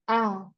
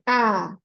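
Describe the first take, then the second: First: The vowel sounds weak, with the mouth barely open. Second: The vowel sounds full, with the mouth wide open. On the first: The speaker calls it wrong. "banyak yang tidak sempurna harokat hamzahnya itu karena mereka mempraktekannya itu a" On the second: The speaker calls it right. "Tapi coba praktekkan dengan a, ... jadi dibuka mulutnya"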